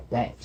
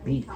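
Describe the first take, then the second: First: "bet" with a short eh vowel. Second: "beat" with a long ee vowel; long E contrast. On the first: Teacher showing what we do hear, short E in "bet". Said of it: "We hear the short E sound". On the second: Teacher showing what we don't hear, long E in "beat". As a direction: stress "beat" with the vowel of see. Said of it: "we don't hear beat". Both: Shown as a demonstration.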